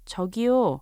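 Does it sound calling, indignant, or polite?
polite. It is said in a polite, gentle tone.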